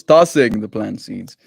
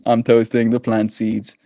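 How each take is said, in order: First: Tossing drawn out slowly and firmly; stress on Tossing. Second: Said in the usual way. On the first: Real, not acted. Streamer corrects a misread word, slow stress on Tossing.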